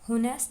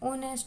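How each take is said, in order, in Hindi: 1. इस शब्द की शुरुआत बोले जाने वाले h से होती है। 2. यह शब्द vowel से शुरू होता है, h silent है। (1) "होनेस्ट नहीं होता" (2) "ओनेस्ट होता है"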